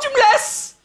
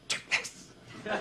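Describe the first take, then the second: First: The phrase is said in a normal voice. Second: The phrase is said in a whisper.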